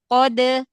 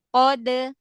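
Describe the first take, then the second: Both takes have the same delivery.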